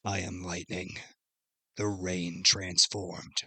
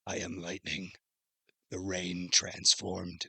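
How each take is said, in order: First: Slow, soft robotic voice. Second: Slow, soft robotic monotone. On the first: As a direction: speak like a cyborg through neck speakers. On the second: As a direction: deliver it like a cyborg through neck speakers. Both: Retold or imitated. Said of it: "So it sounds like a robot-y".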